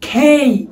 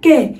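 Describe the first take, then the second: First: It starts with a breathy k and glides. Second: It starts with a plain unbreathy k. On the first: The speaker calls it right. "খেই not কে" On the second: The speaker calls it wrong. "Not কে"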